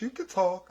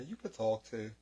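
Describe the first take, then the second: First: Pitched up, teasing the silent brother; teasing jab. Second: Quiet aside. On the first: Teasing his brother for signing instead of talking, higher mock jab. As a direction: needle him, higher and playful. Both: Real, not acted. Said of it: "He over there trying to do damn in sign language".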